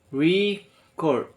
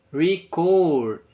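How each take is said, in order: First: Record stressed on the first syllable, REcord; record with the first syllable punched; noun stress. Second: Record stressed on the second syllable, reCORD, a bit louder; record with the last syllable punched; verb stress. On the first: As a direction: say record as a noun, weight on the front. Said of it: "it's a noun". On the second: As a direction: say record as a verb, weight on the end. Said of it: "it's verb". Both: Shown as a demonstration.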